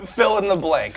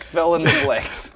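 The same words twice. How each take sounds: First: Said in the usual way. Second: "Fill in the blanks" drawn out slowly, each word stretched; slow teasing repeat. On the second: Shown as a demonstration.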